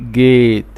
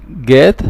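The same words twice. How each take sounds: First: جيت with the long ay sound of gate; correct long a. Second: جات with a short flat a like in cat; mispronounced with short a; wrong short a. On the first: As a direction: say جيت with the long vowel, final e silent. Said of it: "نو، بقول". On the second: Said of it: "ما بقولش". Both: Shown as a demonstration.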